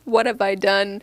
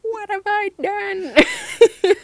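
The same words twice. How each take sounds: First: It is said in a calm, normal voice. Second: It is said as a weak, half-hearted scream.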